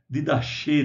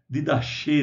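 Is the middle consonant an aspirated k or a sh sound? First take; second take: sh sound; sh sound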